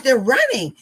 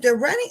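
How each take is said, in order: First: RUNNING said as news, falling at the end; "running" as a raised, excited statement. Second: RUNNING lifted into a surprised question; higher voice, questioning rise on "running"; echoed question. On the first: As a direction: announce "running" higher and louder, tune dropping. Telling the student, she echoes it. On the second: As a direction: repeat it back, "running" rising at the end. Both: Retold or imitated.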